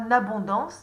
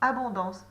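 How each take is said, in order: First: The word starts with an n sound. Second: The word starts directly on its vowel. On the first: The speaker calls it wrong. "C'est pas n'abondance" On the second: The speaker calls it right. "c'est abondance"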